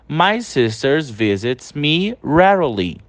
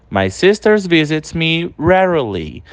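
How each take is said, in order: The two takes are said the same way.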